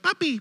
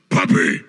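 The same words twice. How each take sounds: First: It is said quietly in a tiny sweet voice. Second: It is said loudly in a demanding voice. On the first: A gentle call for attention. "like quiet, like she has a sweet, like tiny little baby voice" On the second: An insistent demand after being ignored. "But if you're not paying attention, she goes"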